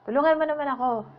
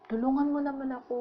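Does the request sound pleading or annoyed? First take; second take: annoyed; pleading. First: It sounds demanding, annoyed and irritated. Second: It sounds gently pleading and persuasive.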